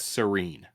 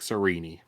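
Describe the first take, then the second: First: The final E is silent. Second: The final E is pronounced as a vowel. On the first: The speaker calls it wrong. "keep the last E silent approach" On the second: The speaker calls it right. "the correct pronunciations like Serini"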